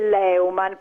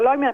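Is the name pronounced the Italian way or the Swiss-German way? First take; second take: Italian; Swiss-German. First: The name is pronounced the local Italian way. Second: The name is pronounced the original Swiss-German way. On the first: This is how people in Piedmont say it. "qua in Piemonte si dice Leumann" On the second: This is the family's original name. "invece di dire Leumann"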